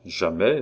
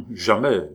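First: JAMAIS echoed with a rising end; questioning repetition. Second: Loud, firm JAMAIS with falling end; emphatic, final JAMAIS dropping at the end; peremptory. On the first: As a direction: repeat JAMAIS back as a question. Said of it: "répéta le comte". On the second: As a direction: shut it down with a decisive JAMAIS. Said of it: "répondit celui-ci péremptoirement". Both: A narrator's reading.

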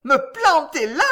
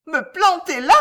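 First: High, loud, indignant repeat; enraged cry. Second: High, loud outraged question; enraged cry. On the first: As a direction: cry out in fury. (question criée avec rage) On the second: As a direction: shriek it in outrage. (cri de rage aigu) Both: A narrator's reading. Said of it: "cria-t-elle en tremblant de rage".

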